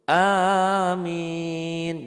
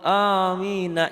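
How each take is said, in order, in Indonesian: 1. Kata ini berakhir dengan konsonan mati. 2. Kata ini berakhir dengan vokal tambahan. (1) "kalau ingin menghentikan ujungnya menjadi sukun"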